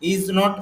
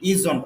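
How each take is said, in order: First: It is said as two separate full words. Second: It is said as one short contracted word. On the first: "ইজ নট এইভাবেও বলতে পারি" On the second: "আরো short তাড়াতাড়ি করে বলতে চাই, তাহলে বলবো ইজন্ট"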